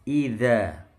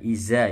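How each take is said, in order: First: The consonant is a th sound, tongue on teeth. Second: The consonant is a plain buzzing z sound. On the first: The speaker calls it right. "Dzal itu lidahnya nempel gigi atas" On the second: The speaker calls it wrong. "bukan iza"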